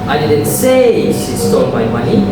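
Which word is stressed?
say. The stress falls on the word say. It was implied, not said. "I implied it"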